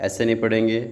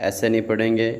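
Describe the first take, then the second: No difference in how they are said.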